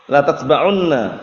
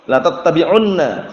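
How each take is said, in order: First: The t sound is single with no vowel after it. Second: The t sound is doubled with a vowel after it. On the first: The speaker calls it wrong. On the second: The speaker calls it right. "kita perhatikan dan hadisnya itu lafadznya"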